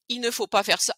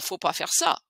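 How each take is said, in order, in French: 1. La phrase commence par un 'il' prononcé. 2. La phrase commence directement par 'faut'.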